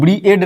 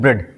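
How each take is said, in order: First: Two vowels, ee then a, are both sounded. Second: The vowel is a single short e sound. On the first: The speaker calls it wrong. "इसको ब्रीएड नहीं पढ़ेंगे" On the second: The speaker calls it right. "ए को यहाँ पे silent कर देंगे, इसको पढ़ेंगे ब्रेड"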